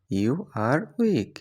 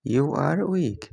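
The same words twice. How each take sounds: First: Slow, word by word for learners; drawn out for students to copy; slow clear repeat. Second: Said in the usual way. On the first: Shown as a demonstration. (ধীরে স্পষ্ট করে) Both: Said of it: "example then repeated slowly".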